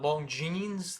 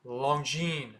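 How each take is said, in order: First: Longines as long-jeenz, S sounded; mispronunciation. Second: Longines as lon-jeen, silent S; French pronunciation. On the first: Teacher shows what not to say, mispronunciation. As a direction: buzz the final S of Longines. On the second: Teacher gives the correction, French pronunciation. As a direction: end Longines on N. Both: Shown as a demonstration. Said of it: "The S at the end is silent".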